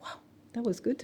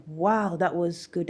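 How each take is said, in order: First: Higher, softer echo of praise; small, pitched-up wondering voice; amazed at herself. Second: Slow, measured praise in usual pitch; slow, admiring "wow"; impressed boss. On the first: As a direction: repeat it in quiet disbelief. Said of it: "I'm like". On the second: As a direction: imitate a boss impressed, drawing it out. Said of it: "My boss was just like". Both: Retold or imitated.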